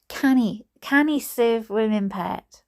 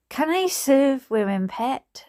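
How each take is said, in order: First: Higher attempt at Geordie drifting into Scottish; botched Geordie, sounding Scottish. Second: Shaky-footed attempt at Geordie, pitched high; Geordie accent. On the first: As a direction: aim for Geordie, land in Scottish. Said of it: "That's more like Scottish". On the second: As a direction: have a rough go at a Geordie barman. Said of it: "I can't be doing Geordie accents".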